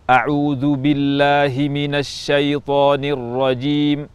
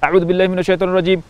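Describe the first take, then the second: First: The long vowels are held to full length. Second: The long vowels are cut too short. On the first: The speaker calls it right. "Contoh membaca dengan tempo al-hadr" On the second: The speaker calls it wrong. "tidak boleh ... panjang-pendeknya tidak dibaca dengan tepat"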